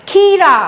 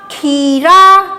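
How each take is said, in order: First: Said in the usual way. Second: Very slow, drawn-out blended word; sounding out words. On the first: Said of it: "क्या बन गया ये शब्द?". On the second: Shown as a demonstration. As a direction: stretch the word out slowly. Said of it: "अब इसको पढ़ के देखते हैं".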